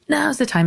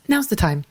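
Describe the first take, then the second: First: Now's the time, pitched far higher, insistent; the body pushing harder now; urgent, much higher. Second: Now's the time, a touch raised and eager; the body nudging, first take; mild urging. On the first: Body voiced as urging. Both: Retold or imitated.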